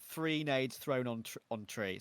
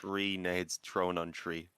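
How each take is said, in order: First: Slow Irish "three nades thrown on tree"; Irish accent. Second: Slow "Three nades thrown on tree", "tree" without H; slow careful tongue twister. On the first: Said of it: "See, I'm doing it now". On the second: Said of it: "can you say it". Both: Shown as a demonstration.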